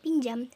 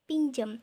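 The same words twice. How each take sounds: First: The last vowel is pronounced as 'a'. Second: The last vowel is pronounced as 'e'. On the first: The speaker calls it right. "yang seharusnya adalah diucapkan dengan pinjam" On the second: The speaker calls it wrong. "Fonem A di sini diubah menjadi fonem E"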